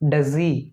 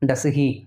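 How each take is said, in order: First: The words blend into one, with no h. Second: Two separate words with an audible h. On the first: The speaker calls it right. "ஈ தான் sound வரணும்" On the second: The speaker calls it wrong. "நிறைய பேர் சொல்கிறத எப்படி சொல்லுவீங்க ... தப்பு"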